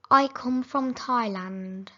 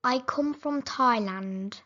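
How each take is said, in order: Both takes have the same delivery.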